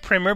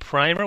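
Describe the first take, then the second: First: It is said like the schoolbook word primer. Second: It is said unlike the schoolbook word primer. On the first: It names an elementary school reading textbook. The speaker calls it wrong. "I was pronouncing it like an old, you know, an elementary school textbook" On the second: It names the film as it is meant to be said. The speaker calls it right. "Do you mean Primer?"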